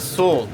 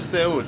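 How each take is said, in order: First: Seoul is pronounced the way Americans say it. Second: Seoul is pronounced the way Iranians say it.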